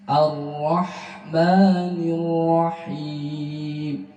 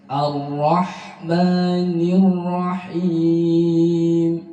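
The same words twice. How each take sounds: Both takes have the same delivery.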